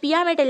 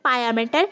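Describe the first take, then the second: First: The first vowel sounds like 'ee'. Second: The first vowel sounds like 'eye'. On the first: The speaker calls it wrong. "এটা পিয়া ম্যাটার লেখা আছে" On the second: The speaker calls it right. "এটার actual যে উচ্চারণ সেটা হবে পায়া ম্যাটার"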